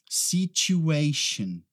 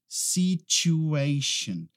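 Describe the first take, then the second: The two takes are said the same way.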